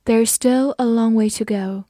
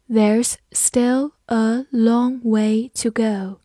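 First: Said in the usual way. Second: Slow, measured, word by word; slow, evenly spaced model reading; slow read-through. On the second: Shown as a demonstration. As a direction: read it slowly so learners can repeat. Teacher's slow read-along, then normal speed.

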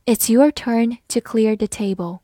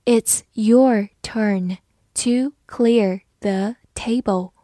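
First: Said in the usual way. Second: Slow and even, each word apart; slow reading. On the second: Shown as a demonstration. Teacher reads slowly for the class, slow reading. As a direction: read it slowly for learners. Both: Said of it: "好，慢慢来读".

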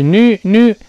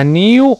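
First: "new" as American "noo", loud and high; 美式读音. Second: "new" as British "nyoo", said loud; a clear y glide in "new"; 英式读音. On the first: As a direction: drop the y from "new". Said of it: "而美国人一读是这么读的". (美式 new，大声读成“努”) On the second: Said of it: "英国人读这个词呢是这么读的". (英式 new，大声带耶音) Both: Shown as a demonstration.

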